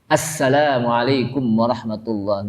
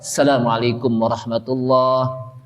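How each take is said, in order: First: The opening 'as' sound is clearly pronounced. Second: The opening 'as' sound is dropped. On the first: The speaker calls it right. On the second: The speaker calls it wrong. "Berarti asnya itu apa? Hilang"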